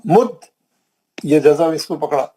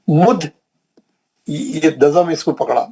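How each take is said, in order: The two takes are said the same way.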